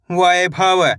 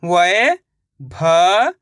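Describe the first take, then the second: First: Said in the usual way. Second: Vaibhav drawn out slowly, syllable by syllable, rising at the end; stretched syllables. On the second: Shown as a demonstration. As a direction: spell Vaibhav out slowly for the class.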